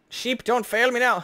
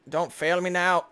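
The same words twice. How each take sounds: First: "Sheep, don't fail me now" higher and louder, pun punched; hammed-up plea. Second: Said in the usual way. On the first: Shown as a demonstration. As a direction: belt out the pun like a desperate cry. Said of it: "'Cause it normally says feet".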